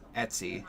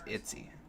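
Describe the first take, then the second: First: The first vowel sounds like 'eh'. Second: The first vowel sounds like 'ih'. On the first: "I say Etsy" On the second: "She says Itsy"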